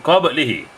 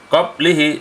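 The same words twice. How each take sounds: First: The b in qablihi has an echoing bounce. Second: The b in qablihi is plain, without a bounce. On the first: The speaker calls it right. "Yang betul" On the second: The speaker calls it wrong.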